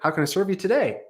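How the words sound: The voice rises at the end.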